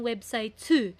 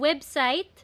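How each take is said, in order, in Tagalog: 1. Nagtatapos ang salita sa dinagdag na tunog ng patinig. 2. Nagtatapos ang salita sa tunog ng katinig. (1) "Pero naging website too" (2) "dapat t"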